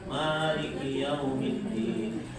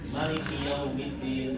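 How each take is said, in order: First: The first vowel of Maliki is long. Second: The first vowel of Maliki is short. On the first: "boleh juga" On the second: "baca pendek"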